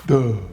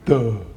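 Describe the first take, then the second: First: It is said in a dopey cartoon voice. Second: It is said in a dopey cartoon voice.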